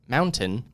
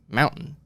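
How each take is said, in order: First: The middle T is clearly pronounced. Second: The middle T is dropped.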